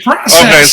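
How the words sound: The word is said with an American pronunciation. The speaker calls it wrong. "Don't be like an American. Don't say"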